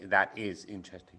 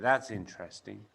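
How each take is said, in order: First: "That is" is said as two full words. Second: "That is" is contracted to "that's". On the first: The speaker calls it wrong. "we don't say that is interesting" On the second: The speaker calls it right. "We say that's interesting"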